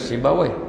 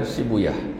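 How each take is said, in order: First: The name ends with the sound "-wai". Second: The name ends with the sound "-yah". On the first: "kebanyakan guru baca Sibawai" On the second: "sebahagian guru saya baca dengan Sibuyah"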